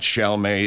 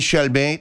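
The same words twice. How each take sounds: First: The name is said with a local English-style pronunciation. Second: The name is said with a French-style pronunciation. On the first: The speaker calls it right. "No, to hell with that" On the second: The speaker calls it wrong. "you mean Chalmette?"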